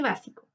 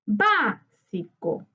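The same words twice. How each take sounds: First: Said in the usual way. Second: Básico very slowly, BÁ long, then a gap; tonic syllable stressed. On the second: Shown as a demonstration. Teacher marking the tonic syllable for students, BÁ drawn out in Básico. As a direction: stretch BÁ in Básico and let the rest drop. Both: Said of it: "identificar la sílaba tónica".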